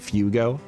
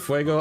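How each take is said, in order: First: The first syllable is said as "foo". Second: The first syllable is said as "fway". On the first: The speaker calls it wrong. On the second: The speaker calls it right.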